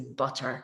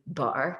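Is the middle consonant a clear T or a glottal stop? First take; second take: clear T; glottal stop. First: The middle T is a clear T. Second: The middle T is a glottal stop. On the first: This is the standard, approved form. The speaker calls it right. "say butter" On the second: This is the stigmatized local form. The speaker calls it wrong. "don't say butter"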